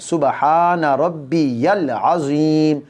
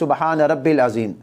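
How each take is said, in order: First: It is said fully, keeping the 'ya' sound. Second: It is said hurriedly, dropping the 'ya' sound. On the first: The speaker calls it right. "रब्बिल अज़ीम नहीं है" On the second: The speaker calls it wrong. "वो जल्दी में होते हैं तो इस तस्बीह को कैसे पढ़ते हैं"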